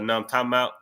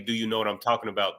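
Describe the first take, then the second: First: The words are run together and shortened. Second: Each word is said fully and separately. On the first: "They blend it together" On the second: "They don't say"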